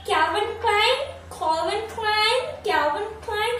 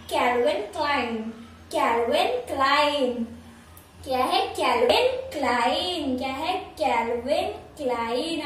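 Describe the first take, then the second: First: Calvin Klein said high with a rising, questioning end; common wrong version. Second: Calvin Klein said very slowly, stress on Calvin, falling; correct pronunciation. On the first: Teacher mimicking how people say Calvin Klein. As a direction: toss off Calvin Klein carelessly, pitched up. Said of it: "कैसे दे देते हैं ये हमें बताइए". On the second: Teacher drilling viewers on the correct Calvin Klein. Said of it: "इसका जो सही pronunciation है". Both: Shown as a demonstration.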